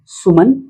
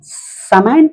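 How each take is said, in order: First: The second vowel is a short 'uh' sound. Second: The second vowel is a front 'a' as in cat. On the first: It is read as the Hindi name. "ऐसे तो आप पढ़ दिए सु म न" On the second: It is read by English letter sounds. "समैन पढ़ना पड़ेगा आपको"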